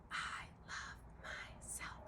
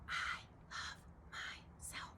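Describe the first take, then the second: First: It is spoken in a whisper. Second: It is spoken in a whisper.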